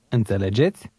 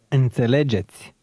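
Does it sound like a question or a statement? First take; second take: question; statement. First: It is said with question intonation. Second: It is said with statement intonation.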